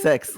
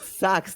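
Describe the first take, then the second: First: The vowel sounds like 'eh', giving 'sex'. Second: The vowel sounds like 'uh', giving 'sucks'. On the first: It imitates how a character with an accent says it. The speaker calls it wrong. "when he says this sucks, it says sex" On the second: It is the intended standard pronunciation. The speaker calls it right. "it sucks, not sex"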